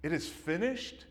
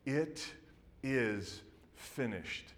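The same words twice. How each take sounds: First: "It is finished" rising like a baffled question; puzzled question. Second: "It is finished" drawn out very slowly, falling at the end; slow solemn declaration. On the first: Onlookers puzzling over Jesus's words, baffled rising question. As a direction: ask "finished?" in confusion. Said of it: "could you imagine the confusion". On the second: Jesus on the cross, slow solemn final words. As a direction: slowly lay down each word of "is finished". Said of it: "Jesus cries out". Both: Retold or imitated.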